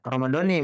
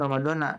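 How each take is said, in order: First: The word ends with an 'ee' vowel. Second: The word ends with an 'ah' vowel. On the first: The speaker calls it right. "Ramadhani bukan ramadhana" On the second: The speaker calls it wrong. "bukan ramadhana"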